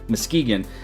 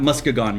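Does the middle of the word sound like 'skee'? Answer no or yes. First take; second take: yes; no. First: The middle syllable sounds like 'skee'. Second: The middle syllable does not sound like 'skee'. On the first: The speaker calls it right. "I should have known it was Muskegon. They call it Ski Town" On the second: The speaker calls it wrong. "It's not Muskegon"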